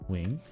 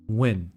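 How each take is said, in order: First: The name is said with its Vietnamese sounds. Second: The name sounds like the English word win. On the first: "in Vietnamese, I say Wing, where there is no N" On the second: "like W I N"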